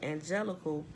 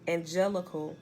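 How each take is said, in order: First: The word is said plainly, without special articulation. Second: The word is said with careful, marked enunciation.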